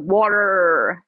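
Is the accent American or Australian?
American. It is said with an American accent.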